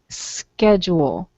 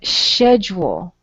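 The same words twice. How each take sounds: First: The word begins with a 'sk' sound. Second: The word begins with a 'sh' sound. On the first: This is how people in the United States say it. "the C H will often sound like a K" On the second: This is how people in other countries say it. "In other countries, they say um"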